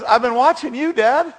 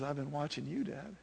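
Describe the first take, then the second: First: Put-on high, loud country twang as a little boy; hammed-up twangy kid, proud of Dad. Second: Put-on soft, low-key boy's reply; quiet, heartfelt confession to Dad; tender son. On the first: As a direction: belt it out in corny country twang. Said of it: "You gotta say it with a twang". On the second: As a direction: say it hushed and sincere. Praying son's tender reply in song.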